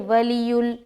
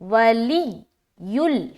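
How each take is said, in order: First: The 'y' sound is said lightly, not doubled. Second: The 'y' sound is doubled and pressed hard. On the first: The speaker calls it wrong. "उसने सख्ती नहीं की तो ये गलत हो जाएगा" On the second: The speaker calls it right. "ये सही है"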